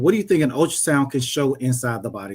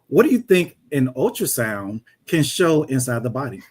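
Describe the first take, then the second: First: It is said in the speaker's ordinary voice. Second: It is said in a put-on teacher voice.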